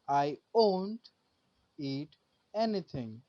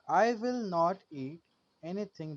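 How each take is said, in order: First: Will not is shortened to one syllable. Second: Will not is said as two full words. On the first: "will not changes to won't" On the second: "will not changes to won't"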